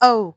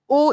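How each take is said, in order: First: The vowel sounds English. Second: The vowel sounds Scottish. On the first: The speaker calls it right. "English में इसको ओ कहा जाता है" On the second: The speaker calls it wrong. "ओ is more Scottish"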